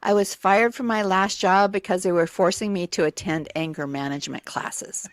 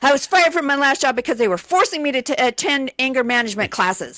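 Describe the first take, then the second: First: It is said in a calm tone. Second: It is said in an angry tone.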